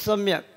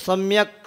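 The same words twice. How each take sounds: First: The final k is bare and unstressed. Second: The final k carries a full vowel and stress. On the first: The speaker calls it right. "बस सम्यक, और जल्दी से आगे प्रणम्य, क्योंकि क जो है वहाँ पे सम्यक में हलंत है" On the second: The speaker calls it wrong. "सम्यक ऐसे नहीं बोलना"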